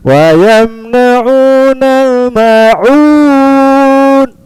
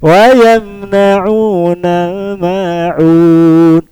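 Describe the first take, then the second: First: The melody stays high at the end. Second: The melody falls at the end. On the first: The recitation seems to continue. The speaker calls it wrong. "Itu nadanya nada mau melanjutkan" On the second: The recitation is finished. The speaker calls it right. "jadi ambil turun"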